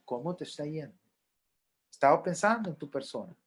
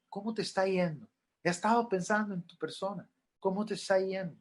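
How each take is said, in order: First: Gentle question. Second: Softer, caring check-in; gentle question. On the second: Counselor gently asks a mourner how they are, softened. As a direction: ask it kindly, softly. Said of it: "Pregúntele". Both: Shown as a demonstration.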